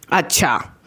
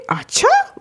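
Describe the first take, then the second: First: Understated, ominous acknowledgement; mother's disapproving reaction. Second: Light, high, rising okay from a chill dad; casual normal reaction. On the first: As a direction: imitate a displeased mom's falling okay. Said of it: "मेरी mummy का reaction एकदम opposite". (नाराज़ माँ का ठंडा अंदाज़) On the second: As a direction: imitate dad taking news easily. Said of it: "उनका normal reaction". (हल्का, बेफ़िक्र अंदाज़) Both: Retold or imitated.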